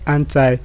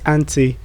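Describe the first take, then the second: First: It is said in an American accent. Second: It is said in a British accent. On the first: "The American way of saying this word is" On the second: "the British way of saying this word is"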